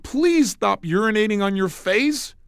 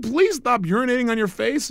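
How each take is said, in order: First: Slow, dead-serious odd request; slow matter-of-fact absurd line; deadpan pattern interrupt. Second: The same absurd line again, pitched higher and pressing; higher insistent retake of the absurd line; insistent repeat. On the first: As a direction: say it slowly, straight-faced, to jolt her. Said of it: "and I said". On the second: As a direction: repeat it higher, pushing the point home. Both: Retold or imitated.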